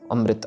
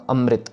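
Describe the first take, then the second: The two takes are said the same way.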